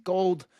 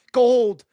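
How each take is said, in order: First: Said in the usual way. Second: Gold shouted much louder and higher; triumphant shout. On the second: Real, not acted. Taunting Canadian fans, shout Gold in triumph. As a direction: belt Gold out.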